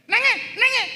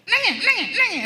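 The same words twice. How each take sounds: First: Shrill high mock scold, much higher and louder; scolding grandmother. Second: High, loud mock granny scold; scolding grandmother. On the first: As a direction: mimic a cross granny. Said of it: "marah pada cucu kita". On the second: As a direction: snap it like a cross granny. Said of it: "Cuba tengok opah dia". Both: Grandmother scolding crying grandchild, high mock scold.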